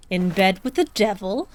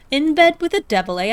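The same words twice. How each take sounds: First: Said in the usual way. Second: In bed with the devil said higher and louder, hammed-up; mocking exclamation. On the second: Shown as a demonstration. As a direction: throw In bed with the devil out as a scornful jeer.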